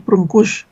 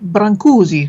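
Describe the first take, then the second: First: The name has its native Romanian pronunciation. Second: The name has an Italian-sounding English pronunciation. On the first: The speaker calls it right. "learned that it was Brâncuși" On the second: The speaker calls it wrong. "all the English people I know, including me, pronounce it Brancusi because it looks Italian"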